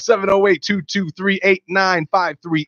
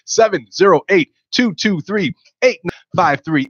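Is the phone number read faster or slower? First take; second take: faster; slower. First: The number is read at a quicker pace. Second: The number is read at a slower pace.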